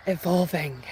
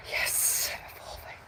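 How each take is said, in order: First: Said in the usual way. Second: A breathy aside, almost silent; whisper. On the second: Shown as a demonstration. Vlogger repeating her key word to viewers, whispered.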